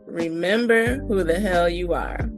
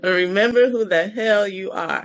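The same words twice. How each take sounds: First: It is said softly, without force. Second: It is said forcefully, without apology.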